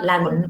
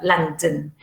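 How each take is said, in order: First: The final vowel is a full, unreduced vowel. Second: The final vowel is reduced to a schwa. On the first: The speaker calls it wrong. "It's not London" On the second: The speaker calls it right. "but London"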